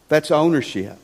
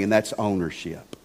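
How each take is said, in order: First: Said in the usual way. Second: A hushed, settling first take; soft low statement. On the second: Shown as a demonstration. Preacher to congregation, first naming the point, hushed. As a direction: drop the voice low and soft on ownership.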